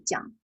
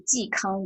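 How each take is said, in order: First: It is blurred and shortened into one syllable. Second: It is said clearly as two syllables.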